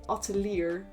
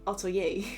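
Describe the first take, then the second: First: Every written letter is sounded out. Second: Some written letters stay silent. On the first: The speaker calls it wrong. "I kept saying atelier" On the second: The speaker calls it right. "instead of atelier"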